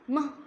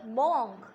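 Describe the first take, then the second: First: The vowel sounds like 'u'. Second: The vowel sounds like 'o'. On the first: The speaker calls it right. "instead of O, we are going to use U" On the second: The speaker calls it wrong. "Monk is not correct"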